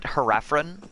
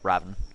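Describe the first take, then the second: First: The word has an extra r sound. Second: The word has a single r sound. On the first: The speaker calls it wrong. "They pronounced it Haraphron, and they put an extra R in it" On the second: The speaker calls it right. "the word that they were using is"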